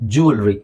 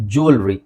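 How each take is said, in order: The two takes are said the same way.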